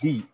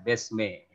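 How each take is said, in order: First: The vowel is a clear, pure i sound. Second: The vowel slants toward an e sound. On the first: The speaker calls it right. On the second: The speaker calls it wrong. "jangan bi jadi jadi miring"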